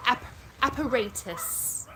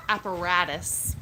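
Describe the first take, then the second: First: App-, apparatus slowly, British style, long ay and a crisp t; slow English Apparatus with a hard t; British Apparatus, careful and drawn out. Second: American accent: say Apparatus with a d-like t; slower American accent Apparatus, apa-RA-dus. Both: Shown as a demonstration.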